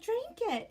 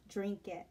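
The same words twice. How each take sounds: First: High-pitched mock-bossy "Drink it"; mother-in-law's order. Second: Said in the usual way. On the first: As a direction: squeak out the order like a pushy mother-in-law. Mother-in-law pushing drink on husband.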